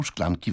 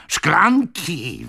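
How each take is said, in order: First: Said in the usual way. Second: High, louder, drawn-out exclamation; impetuous yell. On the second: A narrator's reading. Old man scoffs at a glass of water, yelling. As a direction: yell it in scornful outrage. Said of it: "wrzasnął impetyczny starzec".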